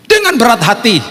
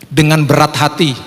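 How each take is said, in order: First: High-pitched, exaggerated reluctance; pained reluctance. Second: Said in the usual way. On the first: Father giving in to buy the painting, pained and high. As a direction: strain it upward as if it costs dearly. Repeats phrase in pained, raised voice.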